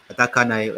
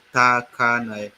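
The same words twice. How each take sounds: First: Said in the usual way. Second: Takanai stretched syllable by syllable, louder; each syllable of Takanai held long; slow sounding-out. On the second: Shown as a demonstration. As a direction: say Takanai slowly and firmly for learners. Sounding out the town name.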